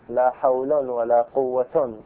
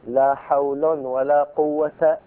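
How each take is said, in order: First: Both nouns end in nunated -un. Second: The first ends in -un, the second in -a. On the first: "ورفعهما" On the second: "وعكسه"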